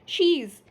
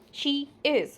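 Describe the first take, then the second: First: It is said as one short contracted word. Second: It is said as two separate full words. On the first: "How we have to pronounce it? She's" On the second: "here it is written she is"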